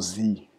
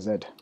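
First: The letter is said the American way, zee. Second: The letter is said the British way, zed.

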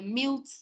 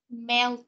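First: The vowel is not a clear 'e' sound. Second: The vowel is a clear 'e' sound. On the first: The speaker calls it wrong. "Mình không phải là melt" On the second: The speaker calls it right. "mà là melt. Âm e nhá"

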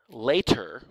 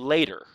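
First: The middle consonant is a clear T sound. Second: The middle consonant is a quick D-like flap. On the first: "the word later with a T sound" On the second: "with that sound that's almost like a D"

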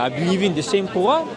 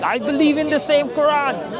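First: It is spoken with a French accent. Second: It is spoken with a German accent. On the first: "French accent" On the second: "You ask a German"

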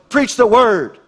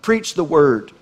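First: It is said forcefully, like an exclamation. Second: It is said calmly, without exclamation. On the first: The speaker calls it right. "Now notice the exclamation point" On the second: The speaker calls it wrong. "I didn't say that right"

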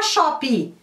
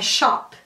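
First: An extra vowel sound follows the final p. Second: The word ends on the bare p sound. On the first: The speaker calls it wrong. "não é falar shop" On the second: The speaker calls it right. "É shop"

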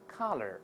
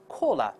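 First: American accent, open first vowel, curled r sound. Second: British accent, rounded first vowel, no r sound. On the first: "按照美音再来一遍" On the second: "如果是英式发音的，前面是发o 这个声音，后面发a"

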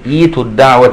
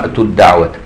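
First: The word starts fresh with an initial 'i' vowel. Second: The word is joined to the preceding word. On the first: "لو هتبدا في نطقها تقول" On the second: "لو هنوصل نقول كده"

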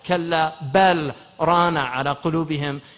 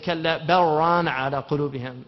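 First: The l of bal is clearly pronounced. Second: The l of bal merges into the r. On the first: This follows the recitation tradition that keeps the letter separate. "It has idhar in that surah" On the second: This follows the Warsh recitation tradition. "in warsh, riwayat warsh. There's idgham"

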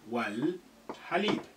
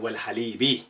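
First: The phrase ends on the consonant b. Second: The phrase ends with a short i vowel.

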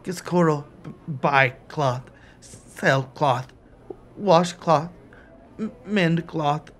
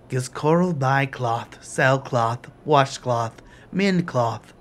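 First: The voice breaks and wavers with emotion. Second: The voice is flat and monotone throughout. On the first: The question has upset him. "Giscoral's monotone breaks" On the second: He is reciting a rehearsed spiel without feeling. "delivered in the same flat monotone"

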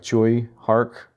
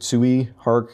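First: The first syllable sounds like choi. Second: The first syllable sounds like tsui. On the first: The speaker calls it right. "it's more like Choi Hark" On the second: The speaker calls it wrong. "who I did mispronounce last time"

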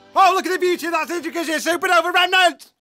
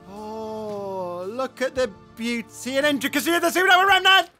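First: It is said fast and aggressively. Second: It is said slower and softer.

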